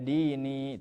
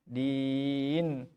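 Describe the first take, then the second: First: The word ends with an extra i vowel. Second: The word ends short on the n sound. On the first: The speaker calls it wrong. "tidak dini" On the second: The speaker calls it right. "dibaca pendek saja nunnya"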